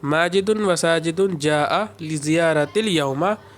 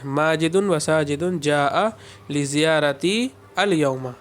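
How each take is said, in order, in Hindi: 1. यह वाक्य 'yawma' से पहले बिना रुके चलता है। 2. 'al yawma' से पहले एक ठहराव है।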